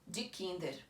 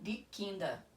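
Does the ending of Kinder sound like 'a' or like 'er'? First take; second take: er; a. First: The final 'er' is fully pronounced with an 'r'. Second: The final 'er' sounds like an 'a' vowel. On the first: This is how people in Switzerland say it. "eu falo die Kinder, pronunciando esse E R no final" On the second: This is how people in Germany say it. "na Alemanha, por exemplo, eles falariam die Kinder, esse E R com som de A"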